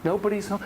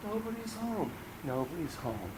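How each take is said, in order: First: Said in the usual way. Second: Much softer hollow echo; hushed, lonely. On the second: Acted. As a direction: let it fade into emptiness. Echoing empty house.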